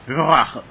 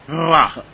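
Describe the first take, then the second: Both takes have the same delivery.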